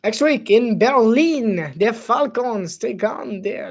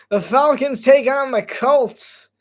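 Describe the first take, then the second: First: Put-on announcer line in a light French accent. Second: Said in the usual way. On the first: Streamer reading the game's schedule as a French-accented announcer. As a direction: read the matchup with a hint of French accent. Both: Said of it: "that's a French accent".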